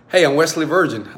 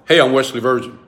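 First: The voice sounds warm and smiling. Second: The voice sounds flat and unsmiling. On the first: The speaker is greeting someone in a friendly, inviting way. The speaker calls it right. "I'm always going to greet you with a smile on my face" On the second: The speaker is greeting someone without warmth. The speaker calls it wrong.

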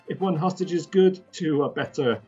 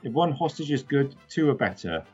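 First: It is read in a put-on character voice. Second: It is read in the speaker's natural voice. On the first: "if I said it in the right" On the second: "Doesn't sound like anything in Star Wars"

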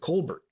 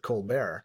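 First: The name is said with an English pronunciation. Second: The name is said with a French pronunciation. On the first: "everybody called him Colbert" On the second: "you better not let him hear you Frenchicize his name"

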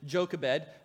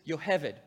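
First: It begins with a J sound and a b. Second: It begins with a Y sound and a v. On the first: This is how the name is usually said in English. "In English, we often pronounce it Jochebed" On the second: This is how the name is said in Hebrew. "That's the Hebrew pronunciation"

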